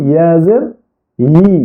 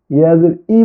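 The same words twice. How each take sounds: First: Final "ই" said as yi, with a y glide; correct ya pronunciation. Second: Bare "ই" with no y glide; mistaken ya pronunciation. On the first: Teacher giving the required form, firm yi on "ই". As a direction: press a clear y into the start of "ই". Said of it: "বলতে হবে". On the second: Teacher warning what must not be said, glideless "ই". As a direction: drop the y at the start of "ই". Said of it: "ইয়া জের ই বলা যাবে না". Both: Shown as a demonstration.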